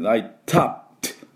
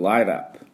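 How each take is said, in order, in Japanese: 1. TははっきりしたTとして発音されます。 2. Tは柔らかい、Lのような弾き音になります。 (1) "ライトアップとあんまり言わなくて" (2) "ちょっとL が、L に近いような音になってしまう"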